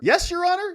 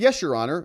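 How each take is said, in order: First: It is said with surprise, like a question. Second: It is said calmly, as plain agreement. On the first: The instruction came as an unexpected change. "It sounds different" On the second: The speaker accepts the instruction as expected. "That sounds reasonable"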